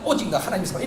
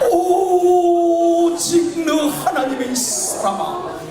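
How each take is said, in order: First: It is said casually, without respect. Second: It is said warmly, with respect.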